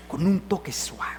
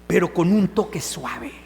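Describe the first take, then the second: First: Soft whisper of "con un toque suave"; whispered gently. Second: Said in the usual way. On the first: Shown as a demonstration. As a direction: breathe it out, barely voiced, as a soft touch. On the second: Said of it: "La ternura es la mano fuerte".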